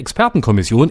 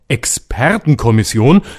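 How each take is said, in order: First: The word is said plainly, without irony. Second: The word is said ironically, as if in quotes. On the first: The experts are taken at face value. The speaker calls it wrong. "das habe ich falsch betont" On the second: The experts' expertise is being doubted. The speaker calls it right. "so betonen müssen, damit man die Anführungsstriche vor Expertenkommission besser hören kann"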